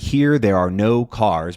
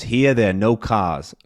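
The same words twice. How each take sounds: First: Said in the usual way. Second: R-less New York demonstration; New York accent. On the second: Shown as a demonstration. Teacher showing what the phrase becomes, New York accent. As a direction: drop every R like a New Yorker.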